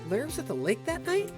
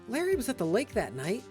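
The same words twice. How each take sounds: First: The voice rises at the end. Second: The voice falls at the end.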